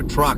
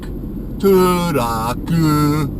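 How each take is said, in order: First: It is said as one short syllable. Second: Vowels are added, making three syllables.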